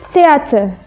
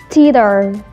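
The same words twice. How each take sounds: First: The vowels in the middle are said distinctly. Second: The vowels in the middle merge into one. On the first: "Kalau British mereka lebih jelas membacanya" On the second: "kalau American mereka lebih I sama E-nya itu mereka baca menjadi I"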